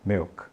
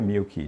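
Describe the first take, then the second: First: The word ends cleanly on the k sound. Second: An extra vowel sound follows the final k. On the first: The speaker calls it right. "diga milk" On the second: The speaker calls it wrong. "não diga milk"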